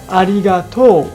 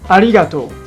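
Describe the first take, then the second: First: The accent falls on the final syllable, Kansai style. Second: It has a standard Japanese pitch accent.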